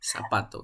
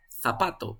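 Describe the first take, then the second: First: "zapato" starting with a plain S; everyday S sound. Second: "zapato" with a TH sound at the start; Castilian Z. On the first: Teacher showing the student's habit, "zapato" with initial S. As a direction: say "zapato" as sapato. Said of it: "pero tú lo dices zapato". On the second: Teacher showing standard Spanish, "zapato" with initial TH. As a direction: say "zapato" as thapato. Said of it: "la correcta pronunciación en el español". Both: Shown as a demonstration.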